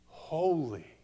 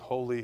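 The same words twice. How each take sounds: First: It is said slowly with deep feeling. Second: It is said flatly, by rote. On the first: The word is savored with growing revelation. The speaker calls it right. "We're going to be almost like tasting it, smelling it, feeling it" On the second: The word is repeated without real understanding. The speaker calls it wrong. "it's not going to be that we're just going"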